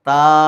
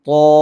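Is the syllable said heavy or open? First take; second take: open; heavy. First: The syllable is light with an open mouth. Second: The syllable is heavy with a rounded mouth. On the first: The speaker calls it wrong. "താ അല്ല" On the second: The speaker calls it right. "തോ ഒരു ഓ എന്നൊരു ശബ്ദം"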